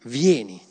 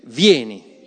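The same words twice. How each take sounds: First: Said in the usual way. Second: Louder, leading the congregation in saying vieni; spoken together. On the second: Shown as a demonstration. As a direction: call out vieni firmly with everyone. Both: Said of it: "Diciamo insieme".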